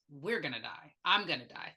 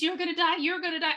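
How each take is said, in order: First: Low, soft flat mutter; general muttering. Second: Higher, sharper jab at Rose; pointed warning. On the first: Patient muttering to nobody, low and soft. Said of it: "It was". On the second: Patient aiming it at Rose, higher and pointed. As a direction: aim it right at her face. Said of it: "So it was pointed at Rose". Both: Retold or imitated.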